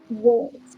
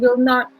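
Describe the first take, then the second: First: It is said as one contracted word. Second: It is said as two full words.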